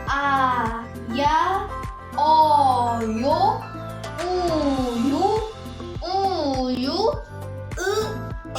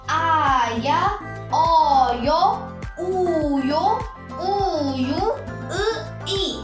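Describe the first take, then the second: First: The list is read more slowly. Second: The list is read at normal speed.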